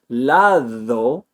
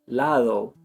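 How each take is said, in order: First: The d is a full th-like sound. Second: The d is soft, with no tongue contact. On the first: "instead of saying lado" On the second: "it's lado"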